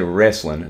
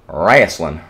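First: The word has its standard, non-regional pronunciation. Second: The word has a rural Appalachian pronunciation. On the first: "they don't say wrestling" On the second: "They're country, so they don't say wrestling. They say wrestling"

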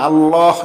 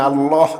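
No difference in how they are said.

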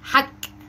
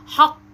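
First: It ends with a light front k sound. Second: It ends with a deep back q sound. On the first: The speaker calls it wrong. "ما قلتش ايه حك دي كده بالكاف" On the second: The speaker calls it right. "لكن بالقاف بقى حق"

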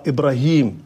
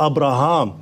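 First: The name is said as Ibrahim. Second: The name is said as Abraham. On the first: This is the later reading with a dotted ya. The speaker calls it wrong. "فهي قرأت بالخطأ إبراهيم" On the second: This is the original reading with a long a. The speaker calls it right. "وهي المفروض أبراهام"

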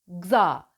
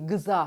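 First: The g and z are joined with no vowel. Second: A short vowel is inserted between g and z. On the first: The speaker calls it right. "Önce g sesini çıkartın" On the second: The speaker calls it wrong. "Gıza, hayır"

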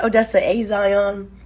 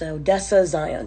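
First: The 'a' is said apart from 'Zion'. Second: The 'a' runs straight into 'Zion'. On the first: The speaker calls it wrong. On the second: The speaker calls it right. "let it bleed into the next word"

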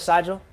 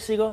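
First: The name does not sound like seagull. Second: The name sounds like the word seagull. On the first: The speaker calls it wrong. "Instead of Sigel?" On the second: The speaker calls it right. "like the Bird?"

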